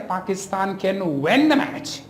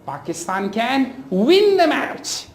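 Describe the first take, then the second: First: "win" mispronounced as "wen"; wrong vowel. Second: "win" with a clear short i; slow model sentence, "win" with i, not e; careful short i in "win"; correct short i. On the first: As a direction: demonstrate the error, "win" with an e vowel. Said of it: "So you can't say". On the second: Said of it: "it is e". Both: Shown as a demonstration.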